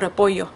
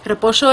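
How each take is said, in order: First: The 'll' is pronounced like a 'y' sound. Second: The 'll' is pronounced like an 'sh' sound. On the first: "nunca digo repollo" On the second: "siempre lo digo con la sh en vez de la y"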